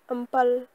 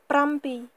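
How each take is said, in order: First: The syllables are run together into a shortened form. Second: Both syllables are said fully and separately.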